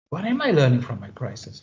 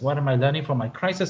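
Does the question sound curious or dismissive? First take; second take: curious; dismissive. First: The question sounds sincere and searching. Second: The question sounds impatient and dismissive. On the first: The question is truly being asked. "until the tone of voice changed" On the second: The question is brushed aside as unimportant. "I don't care about what do I need to learn from my crisis"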